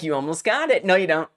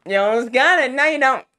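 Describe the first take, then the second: First: Light mocking singsong; playful taunt, first go. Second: Higher, louder mocking taunt; exaggerated nyah-nyah jeer, pitched up. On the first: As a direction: voice the game teasing the player. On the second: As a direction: tease with rising intensity. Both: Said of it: "taunting me".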